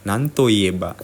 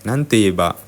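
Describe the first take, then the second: First: The syllable after nan is a full to. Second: The syllable after nan is a quick te. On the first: This is the bookish, more formal form. "bahasa buku itu ... to" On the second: This is the casual, quicker everyday form. "orang Jepang lebih nanti ieba"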